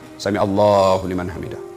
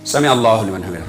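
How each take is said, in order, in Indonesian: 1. Ada jeda singkat sebelum kata berikutnya. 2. Kata berikutnya langsung diucapkan tanpa jeda. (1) "Istirahat sejenak" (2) "Bukan istirahat itu"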